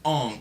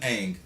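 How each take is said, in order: First: The vowel sounds like the one in 'on'. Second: The vowel sounds like the one in 'cat'. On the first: The speaker calls it wrong. "has been pronounced Ong" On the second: The speaker calls it right. "It's always been Aang"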